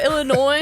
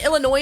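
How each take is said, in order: First: It ends without an S sound. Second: It ends with an audible S sound. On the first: The speaker calls it right. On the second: The speaker calls it wrong.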